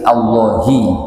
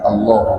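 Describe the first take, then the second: First: The word ends with a short added i vowel. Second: The word ends on the h with no vowel. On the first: The word is read joined to the phrase before it. The speaker calls it right. "Makanya di sini dibaca Allahi" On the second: The word is read as if standing alone. The speaker calls it wrong. "bukan Allah"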